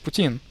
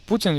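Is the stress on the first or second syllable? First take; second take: second; first. First: The stress is on the second syllable. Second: The stress is on the first syllable. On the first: The speaker calls it wrong. "Here we're going for the second syllable" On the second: The speaker calls it right. "The emphasis is on the first syllable"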